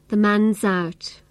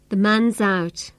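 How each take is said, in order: First: The 'is' is reduced and attached to 'man'. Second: The 'is' is reduced and attached to 'man'.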